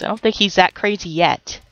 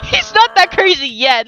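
First: Said in the usual way. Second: Higher, laughing through the words. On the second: Real, not acted. Gamer repeating her joke about the sim, laughing. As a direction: giggle it out as you repeat the joke.

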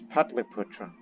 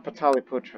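First: "Patliputra" with no vowel between t and l; correct Sanskrit pronunciation. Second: "Pataliputra" with an extra vowel after the t; wrong pronunciation. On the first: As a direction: say "Patliputra" as PAT-li-putra. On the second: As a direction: say "Pataliputra" as pa-TA-li-putra. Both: Shown as a demonstration. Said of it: "that's the correct pronunciation".

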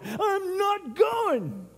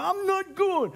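First: A long, sulky, high-pitched refusal; drawn-out whine. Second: Said in the usual way. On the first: Retold or imitated. Churchgoer refusing to come to church, slow and whiny. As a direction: stretch it out very slowly, pitched high.

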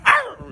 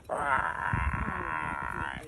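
First: High, sharp wildcat snarl; high-pitched mock cougar cry; wild cougar growl. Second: Low, subdued creaky growl; long, low, softer mock growl; tame cougar growl. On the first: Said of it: "he wants somebody like". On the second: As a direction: imitate a tame cougar, pitched way down. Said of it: "but you more like".

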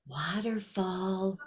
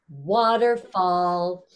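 First: Soft, slow, barely there; quiet waterfall. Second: Slow, stretched loud call; loud waterfall. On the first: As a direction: say it softly and slowly. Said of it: "barely a waterfall". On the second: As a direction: call it out slowly and fully. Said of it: "really loud waterfall". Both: Shown as a demonstration.

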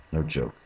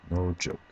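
The two takes are said the same way.

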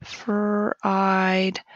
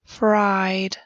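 First: Said in the usual way. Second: Whisper. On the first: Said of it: "spoken repeat of word". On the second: Shown as a demonstration. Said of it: "whispered first take of word".

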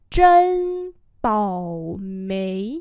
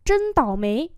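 First: Chân tảo mấy drawn out slowly; slow demonstration. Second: Said in the usual way. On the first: Shown as a demonstration. Teacher repeats "Chân tảo mấy" for learners, slowly. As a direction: stretch each syllable of Chân tảo mấy.

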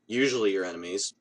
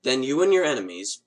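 First: Usually said lower, as a dry correction; stress on usually. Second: Said in the usual way. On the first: Shown as a demonstration. To the viewers, a dry self-correction stressing usually. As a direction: tuck in usually with a dry rise.

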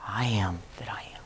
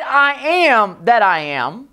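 First: "I am that I am" breathed as a whisper. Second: Slow, stressed "I am that I am"; emphatic I am. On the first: Preacher showing the wrong way, whispered. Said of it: "he did not say". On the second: Preacher showing the emphasis, slow and stressed. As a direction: lean on "I am that I am" with weight. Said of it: "When he said". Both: Shown as a demonstration.

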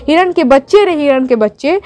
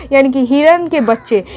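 First: Poem recitation. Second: Said in the usual way. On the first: Shown as a demonstration.

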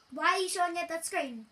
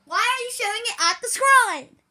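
First: Said in the usual way. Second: Louder, higher scolding; angry yell. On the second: Real, not acted. Kid scolding the cameraman, louder the second time. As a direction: shout it at him, annoyed.

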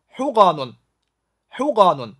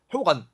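First: حقن slowly, ending in a sounded "-nun"; formal full ending. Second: حقن stopping on the n; colloquial short ending. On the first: (正式读法：حقن 慢读，词尾读出“-un”) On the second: (口语读法：حقن 读到 n 为止) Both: Shown as a demonstration. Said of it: "口语".

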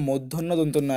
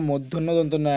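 Both takes have the same delivery.

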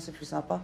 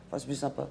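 First: Said in the usual way. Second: "plus" dropped low and soft, wry; wry restatement. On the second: Real, not acted. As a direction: say "plus sympa" lower, half to yourself. (ironique et plus bas)

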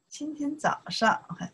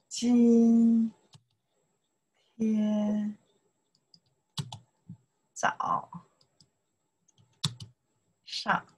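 First: Said in the usual way. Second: 今 天 早 上 spoken one syllable at a time, long gaps between. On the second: Shown as a demonstration. Teacher spelling out this morning syllable by syllable. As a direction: spell out 今天早上 slowly, each syllable alone. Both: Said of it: "拼一下".

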